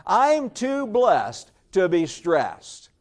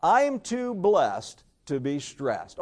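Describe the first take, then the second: First: Slow, emphatic, with conviction; like you mean it. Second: Said in the usual way. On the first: Shown as a demonstration. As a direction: say it slowly and firmly, meaning every word. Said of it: "Say it like you mean it". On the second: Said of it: "Oh, say it again".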